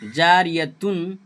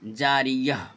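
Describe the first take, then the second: First: The word ends with a 'tun' sound. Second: The word ends with a soft 'h' sound. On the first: The reading continues without stopping. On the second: The reading stops on this word.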